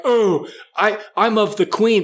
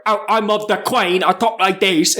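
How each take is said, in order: First: Lightly put-on British accent, pitched up; tidy mock British accent, higher voice. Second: Broad mock British country accent, Queen as "Quayne"; mock a British bumpkin, vowels twisted; hammed-up rural British accent, pitched up. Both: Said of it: "they don't even say it like that".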